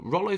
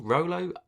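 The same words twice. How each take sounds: First: "Rollo" with a short o, as in "doll"; high "Rollo" rhyming with "follow"; short first vowel. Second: "Rollo" said with a long o, as ROH-loh; high, questioning "Rollo" with the o of "roll"; long first vowel. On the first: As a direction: say "Rollo" as ROL-oh, high and doubtful. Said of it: "Rollo feels wrong". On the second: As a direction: try "Rollo" rhyming with "solo", high-pitched. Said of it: "Is it Rollo or Rolo?". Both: Shown as a demonstration.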